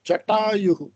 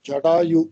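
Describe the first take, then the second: First: The middle consonant is a hard, heavy retroflex t. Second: The middle consonant is a soft, voiced d. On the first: The speaker calls it right. "சமஸ்கிருதத்துல உள்ள எழுத்து பிரகாரம் அது கர்க்கஷா" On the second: The speaker calls it wrong. "Not ஜடாயு. டா சொல்லக்கூடாது"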